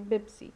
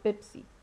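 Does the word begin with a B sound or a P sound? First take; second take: B sound; P sound. First: The word begins with a B sound. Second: The word begins with a P sound.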